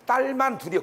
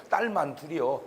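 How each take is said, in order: First: Higher, a little sad, letting down "딸만"; mildly disappointed parent; disappointed sigh. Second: Said in the usual way. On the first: Retold or imitated. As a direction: say "딸만 둘이요" with a sigh of regret. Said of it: "서운함이 말 속에 들어있는 거야". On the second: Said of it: "꼭 이렇게 말해".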